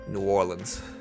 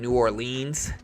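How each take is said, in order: First: It is said the Louisiana local way. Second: It is said the out-of-town way.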